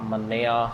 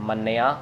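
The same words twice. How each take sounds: The two takes are said the same way.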